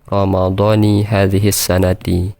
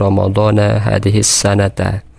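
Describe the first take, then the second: First: The words Ramadhan and sanah end in -i. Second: The words Ramadhan and sanah end in -a. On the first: The year phrase specifies which Ramadan is meant. The speaker calls it right. "apabila kita baca Ramadhani" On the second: The year phrase marks the time of the fast. The speaker calls it wrong. "Apabila kita baca Ramadhana"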